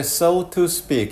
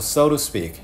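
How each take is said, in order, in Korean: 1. 천천히 말하면 t 소리가 또렷하게 납니다. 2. t가 약해져서 거의 l 소리처럼 들립니다. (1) "이렇게 천천히 해도 되고요" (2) "t가 상당히 약화돼서 우리말로 들을 땐 리을처럼 들립니다"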